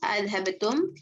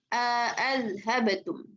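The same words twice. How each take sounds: First: No long vowel is inserted, and both hamzas are clear. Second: A long vowel is inserted, and both hamzas are clear. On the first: "Ibnu Zakwan dengan dua tahqiq hamzahnya" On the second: "dua-duanya hamzah dibaca jelas dengan idghal"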